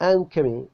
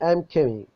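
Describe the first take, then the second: Both takes have the same delivery.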